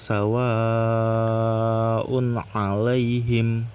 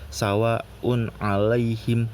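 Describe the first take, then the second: First: The long vowel is held for about four beats. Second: The long vowel is held for only one beat. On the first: The speaker calls it right. "dibacanya sepanjang empat atau lima harokat" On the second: The speaker calls it wrong. "atau satu rokat"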